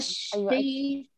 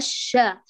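First: The vowel after sh is narrowed, jaw held tight. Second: The vowel after sh is fully open. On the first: The speaker calls it wrong. "قالت الشيء شاد على الفك" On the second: The speaker calls it right. "ما قالت الشا"

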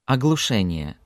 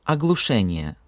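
The two takes are said the same way.

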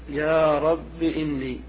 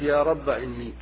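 First: The word ends in a short i vowel. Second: The word ends in a short a vowel. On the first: "الحذف مع الكسر" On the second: "حذف الألف"

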